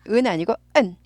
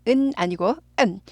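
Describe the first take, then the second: The two takes are said the same way.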